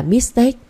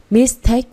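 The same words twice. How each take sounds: First: Mistake with the stress moved off "take" onto "mis"; misplaced stress. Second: Mistake with the second syllable "take" stressed. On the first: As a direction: show mistake wrongly stressed on the first syllable. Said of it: "không phải là". (nhấn sai vào "mis" trong mistake) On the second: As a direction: model the word Mistake, punching "take". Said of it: "phải nhấn vào take". (nhấn vào âm tiết "take" trong Mistake) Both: Shown as a demonstration.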